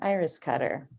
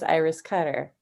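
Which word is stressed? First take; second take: iris; Cutter. First: The stress falls on the first word. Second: The stress falls on the second word. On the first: It is someone who cuts flowers. "one's like an iris cutter" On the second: It is a person's name. "that's the person"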